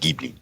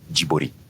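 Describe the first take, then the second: First: It starts with a plain hard g sound. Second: It starts with a soft j sound. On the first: This is the Italian way. "in Italian, it was then just called Ghibli" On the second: This is the Japanese way. "he calls it Jibori because you know he's Japanese"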